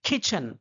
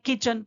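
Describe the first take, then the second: First: The k sound has a strong puff of air. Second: The k sound is plain, without a puff of air. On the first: This is how they say it. "वो लोग क्या बोलेंगे?" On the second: This is how we usually say it. "हम लोग बोलते हैं"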